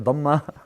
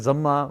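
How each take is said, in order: First: The word begins with a dh sound. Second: The word begins with a z sound. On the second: This is how Pakistanis say it. "a Pakistani scholar will say Zamma"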